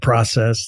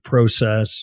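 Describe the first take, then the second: First: It is said with an American pronunciation. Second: It is said with a Canadian pronunciation. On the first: "as opposed to process" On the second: "a couple of their words are process"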